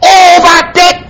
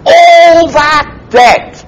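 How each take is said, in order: First: "All" hit high with a long fall; emphatic all. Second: "All" drawn out slow and high with a falling tune; emphatic all. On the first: Preacher repeating the debt to Peter, higher emphatic "All". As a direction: land hard on "All". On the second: Jesus stressing the debt to Peter, slow emphatic "All". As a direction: stretch "All" to weigh the whole debt. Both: Acted. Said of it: "that's emphatic by its position".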